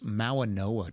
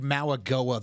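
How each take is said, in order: First: The name has no g sound inside. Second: The name has a hard g sound inside. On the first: The speaker calls it right. "It's Mauanoa, dude. There's no G, bro" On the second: The speaker calls it wrong. "you said Mauagoa the whole draft process"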